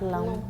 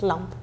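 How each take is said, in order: First: The final E is pronounced as a vowel. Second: The final E is not pronounced at all. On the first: This is how it would sound in German. The speaker calls it wrong. "it's not lamp" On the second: This is how it sounds in French. The speaker calls it right. "in French we don't pronounce the E at the end"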